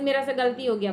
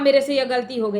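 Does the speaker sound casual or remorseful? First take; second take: remorseful; casual. First: It is said with heartfelt, tearful regret. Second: It is said offhandedly, like giving an order. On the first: The mistake is admitted with sincere feeling. The speaker calls it right. "महसूस करके आंख में आंसू आ जाने चाहिए" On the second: The mistake is admitted without real feeling. The speaker calls it wrong. "जैसे order चलाते हैं"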